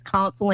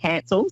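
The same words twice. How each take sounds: First: "cancel" said like "council"; Council pronunciation. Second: "cancel" with a short flat "a", as in can; accented Cancel pronunciation. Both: Shown as a demonstration. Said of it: "That's my accent".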